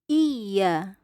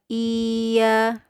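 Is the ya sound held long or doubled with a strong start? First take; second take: doubled; long. First: A strong opening catch, then a doubled ya. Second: The ya is drawn out as a long vowel. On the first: The speaker calls it right. "mengangkat suara hamzah yang ada di depan" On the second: The speaker calls it wrong. "seperti mat atau tanda panjang ya"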